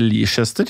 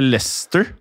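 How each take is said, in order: First: The name is said with three syllables. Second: The name is said with two syllables. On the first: "og så skrives det Leicester" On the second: "Eller Leicester"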